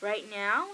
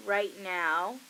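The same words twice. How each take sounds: First: "Right now" as a loud question, "now" swooping up; "Right now?" with a sharp questioning rise; retold incredulous question. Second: "Right now" said loud and low as an answer; "Right now" as a weighty reply, not a question; retold deadpan answer. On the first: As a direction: echo "Right now" in imitated disbelief. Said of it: "And she's like". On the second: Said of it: "And I'm like".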